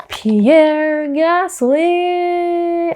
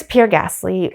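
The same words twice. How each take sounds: First: "Pierre Gasly" drawn out long and high, almost sung; exaggerated, very slow, high-pitched "Pierre Gasly"; Daniel Ricciardo impression. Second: Said in the usual way. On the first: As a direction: stretch every syllable of "Pierre Gasly" in a high voice. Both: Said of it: "as Daniel Ricciardo says".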